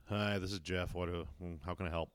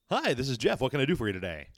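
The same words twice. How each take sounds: First: Low, softer, reluctant greeting; bored, put-out rep. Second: Higher, louder, cheerful rep greeting; chirpy cable rep eager to help; over-the-top customer service voice. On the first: Cable rep answering a caller, bothered and flat. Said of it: "sounds like you're just bothering him". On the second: Cable rep answering a caller, overly bubbly. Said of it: "the fake over the top voice". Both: Retold or imitated.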